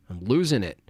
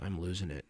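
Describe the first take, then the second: First: Exasperated emphasis on "losing"; stress on LOSING. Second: Said in the usual way. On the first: Real, not acted. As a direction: lean hard on "losing". Repeats it with more emphasis.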